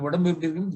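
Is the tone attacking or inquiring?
inquiring. It is said as a caring inquiry.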